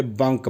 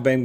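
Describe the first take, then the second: First: बंक as spelt, no 'ai' vowel; Arabic-style pronunciation. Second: Said in the usual way. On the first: Shown as a demonstration. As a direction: say बंक with a short 'u' as in 'bunk'. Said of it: "यहाँ पे बंक बोलते हैं". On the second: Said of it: "अपने यहाँ बैंक बोलते हैं".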